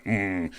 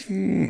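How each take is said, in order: First: Tragedy mask hum. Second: Much higher cheerful hum; comedy mask hum. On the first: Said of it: "the other one's like". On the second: Describing the comedy mask, high bright hum. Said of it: "one is like". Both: Shown as a demonstration.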